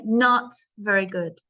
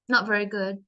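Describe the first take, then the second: First: It is said with strong emphasis and energy. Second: It is said flat, without emphasis.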